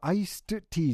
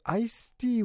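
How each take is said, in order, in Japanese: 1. iced tea と発音します。tがあります。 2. ice tea と発音します。tはありません。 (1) "アイストティーですので" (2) "アイスティーはアイストティーですので、間違いないように"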